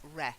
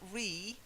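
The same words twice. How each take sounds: First: It does not sound like the 'again' prefix. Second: It sounds like the prefix meaning 'again'. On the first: The speaker calls it right. "It's re, reconnoiter" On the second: The speaker calls it wrong. "It's not re, because you can't connoiter something and then reconnoiter it"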